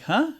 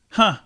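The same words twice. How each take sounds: First: It sounds puzzled, like a question. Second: It sounds struck with wonder and surprise. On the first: The listener did not understand what was said. "when somebody's talking to you and you don't understand what they're saying" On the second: The listener is impressed by what was said. "like I'm amazed"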